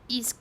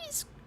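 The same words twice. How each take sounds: First: The voice is pitched lower. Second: The voice is pitched too high. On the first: The speaker calls it right. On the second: The speaker calls it wrong.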